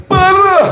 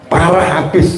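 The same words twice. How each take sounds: First: "Parah" thrown up high, then falling; exaggerated "Parah". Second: Said in the usual way. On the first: Shown as a demonstration. Preacher showing the congregation how to say it, exaggerated high "Parah". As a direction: draw out "Parah" emphatically on a high pitch. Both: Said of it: "ngomongnya agak harus begitu".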